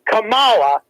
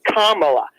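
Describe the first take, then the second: First: Kamala said ka-MA-la, stress on the middle A; stress on second syllable. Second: Kamala said KA-ma-la, stress on the first A; stress on first syllable. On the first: Host demos moving the stress in Kamala, ka-MA-la. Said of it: "if you put the syllable on the second A". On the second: Host shows the Greek stress for Kamala, KA-ma-la. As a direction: hit the first A of Kamala hard. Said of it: "accent on the first A, which should say". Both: Shown as a demonstration.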